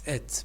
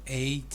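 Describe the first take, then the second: First: The ending is a reduced 'et' sound. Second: The ending is a full 'eight' sound. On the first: The speaker calls it right. "it's et because it's an adjective" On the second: The speaker calls it wrong. "it's not eight"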